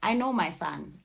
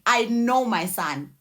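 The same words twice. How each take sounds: First: Said in the usual way. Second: "I know my son" said slowly, each word weighted; slow emphatic repeat. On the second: Real, not acted. Mother insisting she recognises her own child, slow and weighted. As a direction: lean hard on every word, slowly.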